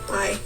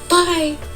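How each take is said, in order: First: It is said in a low, sad tone. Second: It is said in a bright, forced-cheerful tone. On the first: "that sounded so sad" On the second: "that sounded fake"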